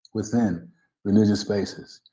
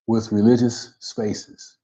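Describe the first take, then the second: First: "within" set apart, then a short pause; "within" said carefully on its own, then the rest falling away; corrective stress. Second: Said in the usual way. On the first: Real, not acted. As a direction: correct it with a deliberate, separated "within".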